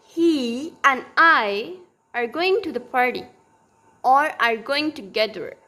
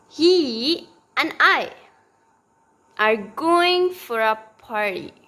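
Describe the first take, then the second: First: Going and together stressed, and unstressed; teacher models stressed lexical words; stress demo. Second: He and I said slowly, he and I stressed; teacher's slow stressed example; stress demo. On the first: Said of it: "so this would be like". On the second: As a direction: lean on he and I, slowly. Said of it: "if I say". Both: Shown as a demonstration.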